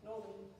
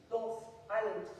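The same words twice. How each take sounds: First: Northern in a soft local accent, sounding close to North Island. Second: North Island said clearly as two words; misheard as North Island. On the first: Showing the hosts' mishearing, soft local Northern. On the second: Telling the audience what the hosts heard, clear North Island. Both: Shown as a demonstration. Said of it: "they were hearing".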